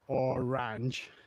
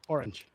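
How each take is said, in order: First: The syllables are drawn out and split apart. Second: The syllables are said quickly, rolled together. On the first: The speaker calls it wrong. "it wouldn't be like orange" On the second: The speaker calls it right. "You'd say orange"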